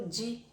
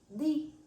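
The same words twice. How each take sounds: First: The d is softened toward a j-like sound. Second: The d stays a plain hard d sound. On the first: This is the Portuguese way. "En portugués decimos" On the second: This is the Spanish way. "En español decimos"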